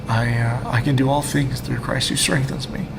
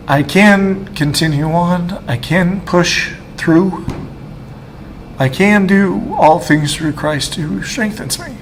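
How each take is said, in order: First: Quiet. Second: Slow, tearful, voice climbing higher; fighting tears while quoting the verse he holds onto; choked up. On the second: Testifying to the camera, slow and tearful, near tears. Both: Real, not acted. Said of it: "I'm emotional".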